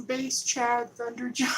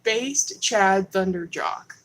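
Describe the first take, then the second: First: Slow, booming name read; hyped name callout. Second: Drawn out, louder announcement; slow loud name read. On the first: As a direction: announce it like a wrestler. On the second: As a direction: savor each syllable of the name. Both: Shown as a demonstration. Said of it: "Let me read it one more time".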